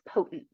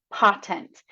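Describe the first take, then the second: First: "potent" with a long o, POH-tent; open-syllable reading. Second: "Potent" with a short o as in pot, POT-ent; closed-syllable misreading. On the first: Student correcting the word after the teacher's hint. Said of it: "Could you try opening up that syllable". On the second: Student first decoding the word with a closed syllable. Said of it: "they might do something like pot". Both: Shown as a demonstration.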